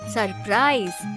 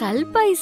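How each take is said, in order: First: It has r sounds and no l. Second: It has an l sound and no r. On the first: The speaker calls it right. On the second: The speaker calls it wrong. "சல்பைஸ் இல்ல"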